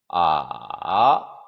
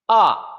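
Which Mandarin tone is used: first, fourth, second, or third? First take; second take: third; fourth. First: The pitch dips low then rises. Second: The pitch falls sharply from high. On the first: "삼성" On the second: "사성"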